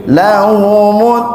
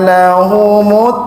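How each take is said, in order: No difference in how they are said.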